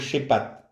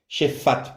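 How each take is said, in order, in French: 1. La consonne du milieu est un P dur. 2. La consonne du milieu est un son F.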